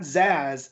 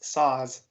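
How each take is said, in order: First: The name begins with a Z sound. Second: The name begins with an S sound. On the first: The speaker calls it wrong. "it's not Zaz" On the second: The speaker calls it right. "the S and the Z make an S A sound"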